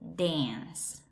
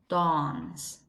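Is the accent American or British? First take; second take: American; British. First: It is said in an American English accent. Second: It is said in a British English accent. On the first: "And in an American English, dance" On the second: "British English, it sounds dawns"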